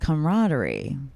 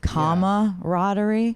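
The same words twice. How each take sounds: First: No vowel is heard after 'cam'. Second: An 'a' vowel is heard after 'cam'. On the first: "There's no A" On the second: "With an A?"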